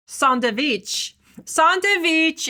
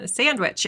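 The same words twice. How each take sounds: First: Sandwich said as sahn-tuh-vich, Persian accent; playful Persian accent on sandwich. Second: Said in the usual way. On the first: Shown as a demonstration. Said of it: "my silly way of saying it with a Persian accent". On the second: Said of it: "my silly way of saying it".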